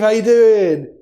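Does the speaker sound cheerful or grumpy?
cheerful. It is said in a cheerful, upbeat tone. The speaker is in a good mood. "if we're in a good mood"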